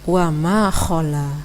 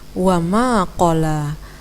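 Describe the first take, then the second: First: The last word starts with a breathy, rasping consonant. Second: The last word starts with a stopped back consonant. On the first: The speaker calls it wrong. "Tadi bacaannya wa ma khala" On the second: The speaker calls it right. "Hal lain yang juga perlu diperbaiki adalah wa ma qala"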